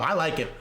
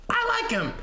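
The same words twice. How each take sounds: First: Said in the usual way. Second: Much higher, falling on I; high squeaky voice. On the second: Acted. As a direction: squeak it out playfully. Squeaky repeat to chat.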